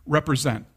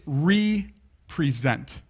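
First: Said in the usual way. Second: "represent" in two slow parts, re ... present; split into RE-PRESENT. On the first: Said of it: "look at that word". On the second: Shown as a demonstration. Preacher showing the congregation the word's parts, slowly split. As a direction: break "represent" as REE, pause, pre-ZENT. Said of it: "I want you to look at that word".

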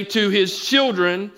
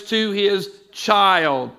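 First: Said in the usual way. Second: Put-on "to his child" said slowly, leaning hard on "child"; stress on child. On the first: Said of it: "notice the scripture doesn't say". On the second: Shown as a demonstration. Preacher to congregation, stressing the singular: slow, weighted "child". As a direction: draw out "to his child" and land on "child". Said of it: "Rather, it says".

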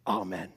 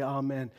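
First: "Amen." answered much lower, as a whole congregation; congregation's amen. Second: A leader's amen, falling to close the prayer. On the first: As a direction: give the crowd's low answering "Amen.". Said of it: "all of the people at the same time would say". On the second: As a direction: call the amen out like the one leading the prayer. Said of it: "when someone would say something and then say". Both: Retold or imitated.

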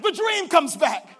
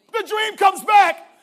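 First: "the dream comes back" slow and loud; emphatic repeat. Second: "The dream comes back" slow, higher and even louder; louder emphatic repeat. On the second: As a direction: hit "The dream comes back" harder the second time. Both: Shown as a demonstration.

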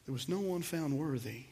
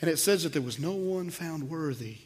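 First: Softer, let the words sink in; quiet, weighty repetition; hushed repeat. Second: Said in the usual way. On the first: Shown as a demonstration. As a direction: drop the voice for emphasis. Preacher repeats the key line.

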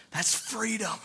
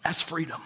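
First: Softer, almost whispered echo; hushed repeat. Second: Said in the usual way. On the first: Real, not acted. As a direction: let it sink in, hushed.

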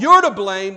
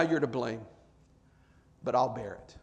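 First: High, forceful finger-pointing blame; loud accusation. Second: Low, soft, forgiving concession; gentle acceptance. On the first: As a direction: throw the blame hard at them. What Christ did not say, accusing. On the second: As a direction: concede it quietly and take the burden. What Christ did say, accepting burden. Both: Acted.

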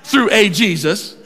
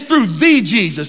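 First: Slowly, with "a" set out before Jesus; "a" given its own weight; stress on A. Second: "the" said as a long, weighty "thee"; stress on THE. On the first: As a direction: lean on "a" as a full, separate word. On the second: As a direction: slowly, punch "the" before Jesus. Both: Shown as a demonstration. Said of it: "doesn't use an indefinite article like a".

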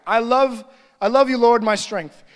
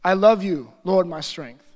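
First: Reading straight through without stopping; hurried reading aloud, no pause; quick skim reading. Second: A slow prayed reading, unhurried; slow prayerful reading. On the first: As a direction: rattle off the verse like a routine read. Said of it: "This is how often people read the Word of God". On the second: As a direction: let the verse sink in, slowly. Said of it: "I read it slow, and I pray it as I read it". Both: Shown as a demonstration.

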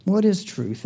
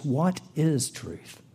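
First: Said in the usual way. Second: What is truth? drawn out slowly and softly; slow quoted question. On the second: Shown as a demonstration. Preacher giving the fill-in answer slowly to the congregation. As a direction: linger on each word of What is truth?. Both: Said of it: "your second fill-in is".

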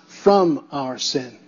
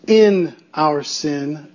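First: FROM drawn out, set apart by pauses; stress on FROM. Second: IN drawn out slowly, set apart; stress on IN. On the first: Preacher correcting a false view of grace, stress on FROM. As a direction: hold the word FROM, slow and low. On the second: Preacher contrasting prepositions for congregation, stress on IN. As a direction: lean slowly on the word IN. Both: Shown as a demonstration. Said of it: "That preposition means everything".

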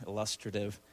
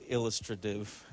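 First: "illustrative" stressed on the second syllable. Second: "illustrative" stressed on the opening syllable; first-syllable stress. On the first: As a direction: say "illustrative" as il-LUS-tra-tive, softly. Repeats with other stress. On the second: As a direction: say "illustrative" as IL-lus-tra-tive. Says the word two ways. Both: Shown as a demonstration.

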